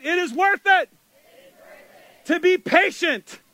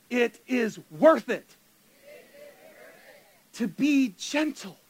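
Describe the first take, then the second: First: Louder, higher chant of the motto; preacher leads congregation in motto, loud and high; call and response. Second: Slow, spelled-out phrase for the crowd to repeat; call and response. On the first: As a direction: lead the crowd in it with energy. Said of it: "Okay, let's say it". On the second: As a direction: say it slowly so they can follow. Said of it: "say it with me". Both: Shown as a demonstration.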